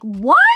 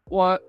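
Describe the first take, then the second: First: It is a loud, yelled exclamation. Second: It is a quiet, restrained exclamation. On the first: This is the standard anime shocked reaction. "that loud yell that we all kind of fall back to" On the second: This is an unconventional shocked reaction. "I did the opposite of that"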